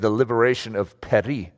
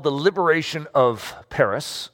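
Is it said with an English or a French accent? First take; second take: French; English. First: It is said with a put-on French accent. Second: It is said with a plain English accent.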